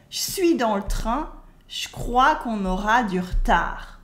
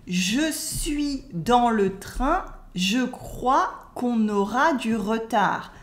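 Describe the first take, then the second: First: "je suis" as "chui", "je crois" as "chcrois"; spoken French, E cut. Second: Slow "Je suis dans le train", every E sounded; textbook French. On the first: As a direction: run "dans le train" and "du retard" together without schwas. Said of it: "But we would say". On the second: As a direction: fully pronounce "je", "le" and "retard". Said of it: "That's textbook French". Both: Shown as a demonstration.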